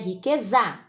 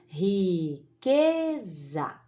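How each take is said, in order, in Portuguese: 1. A tônica cai em outra sílaba. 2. A tônica cai na sílaba do meio. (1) "Não é riqueza" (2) "a força da voz que sobra, a gente deixa pro za"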